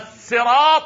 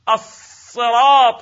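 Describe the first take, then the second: First: The s sound is the plain Arabic seen. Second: The s sound is the emphatic Arabic sad. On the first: "بالسين" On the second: "بالصاد"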